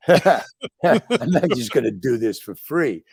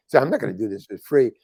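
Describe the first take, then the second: First: Slow words through real laughter; laughing. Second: Said in the usual way. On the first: Real, not acted. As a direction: laugh your way through the excuse. Laughing while making excuses.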